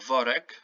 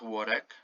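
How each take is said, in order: First: The word begins with a V sound. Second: The word begins with a W sound. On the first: The speaker calls it right. "the W in Polish is pronounced V" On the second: The speaker calls it wrong. "not worek"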